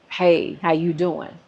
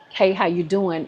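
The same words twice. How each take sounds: First: It is said in a leering, suggestive tone. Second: It is said as a plain, friendly greeting.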